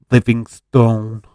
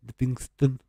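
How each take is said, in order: First: Livingstone stretched slowly, with a full "stone" ending; drawn-out pronunciation. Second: Livingston said quicker and softer, ending in a short "stun"; reduced pronunciation. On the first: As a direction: draw out Livingstone to a long "stone". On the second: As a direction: say Livingston with a small, reduced last syllable. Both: Shown as a demonstration. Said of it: "practice all Scottish team names".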